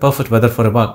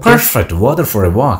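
First: All words are said evenly, without stress. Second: Key words are stressed, with a lively feel. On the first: The speaker calls it wrong. "ഒരേപോലെയും" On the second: The speaker calls it right. "Stress ചെയ്യേണ്ട word നമ്മൾ stress ചെയ്യണം"

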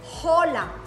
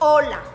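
First: The word begins with an audible h sound. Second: The word begins directly with the vowel sound. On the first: The speaker calls it wrong. "so you don't say hola" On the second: The speaker calls it right. "the H is mute"

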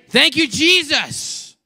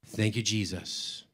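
First: It is said loudly, with raised volume. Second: It is said aloud at normal volume. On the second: "Now out loud"

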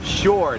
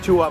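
First: English-style, like a native speaker. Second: Thai-style, with a level pitch. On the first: The speaker calls it right. "ชาวต่างชาติก็จะออกเสียงว่า" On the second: The speaker calls it wrong. "ไม่ใช่ชัว"

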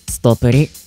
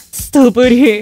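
First: It is said in a plain, ordinary voice. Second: It is said in a tearful, crying voice. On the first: "普通に。" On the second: "泣きながら。"

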